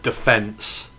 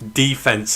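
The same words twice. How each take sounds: First: It is said with a British pronunciation. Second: It is said with an American pronunciation. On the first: This is how the speaker used to say it. "instead of defense" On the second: The speaker has picked up the local habit. "I say um, defense"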